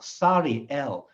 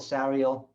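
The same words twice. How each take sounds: First: It is said with a Hebrew pronunciation. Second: It is said with an English pronunciation. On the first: The speaker calls it right. "In Hebrew, it's" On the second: The speaker calls it wrong. "their names in English are"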